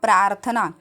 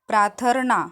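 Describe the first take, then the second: First: The r sound comes just before the th. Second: The r sound comes just before the n. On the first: The speaker calls it right. "र के बाद थ का उच्चारण आएगा" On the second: The speaker calls it wrong. "र के बाद न का उच्चार हो गया"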